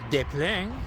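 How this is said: The name is said with French pronunciation. This is the original pronunciation of the name. "originally, of course, French word should be pronounced Des Plaines"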